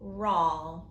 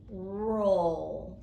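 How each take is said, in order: First: The vowel is a short 'ah' sound. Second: The vowel is a long 'oh' sound. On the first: It does not sound like a known word. The speaker calls it wrong. "So let's try ah" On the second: It sounds like a known word. The speaker calls it right. "So let's try O"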